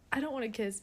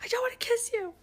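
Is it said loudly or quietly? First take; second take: quietly; loudly. First: It is said at a normal, quieter volume. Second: It is yelled loudly into someone's face.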